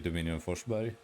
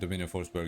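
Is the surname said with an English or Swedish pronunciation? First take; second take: Swedish; English. First: The surname is said with Swedish pronunciation. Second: The surname is said with English pronunciation. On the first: This is how the name is really said. "I know how to pronounce the the last name, so I guess I can actually say it as it is" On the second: This is how most people say the name. "probably more common tongue"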